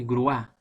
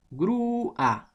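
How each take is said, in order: First: "grúa" squashed into gruÁ; wrong stress on A. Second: "Grúa" slowly split, GRÚÚ... a; exaggerated slow "Grúa" in two syllables; long stressed U. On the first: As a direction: jump to the a of "grúa" in one syllable. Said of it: "no se dice grúa". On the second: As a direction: stretch the U of "Grúa", then detach the a. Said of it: "entonces suena la U". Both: Shown as a demonstration.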